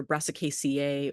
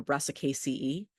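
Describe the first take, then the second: First: Brassicaceae ending in "see-ay". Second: Brassicaceae ending in "see-ee". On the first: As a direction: say the end of Brassicaceae like "ay". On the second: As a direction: say the end of Brassicaceae like "ee". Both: Shown as a demonstration. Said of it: "just different pronunciations".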